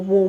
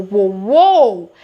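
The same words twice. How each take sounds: First: Said in the usual way. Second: Whoa shouted out loud; loud spooked whoa. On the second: Shown as a demonstration. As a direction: bark out whoa like something just felt wrong. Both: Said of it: "It's giving weird vibes".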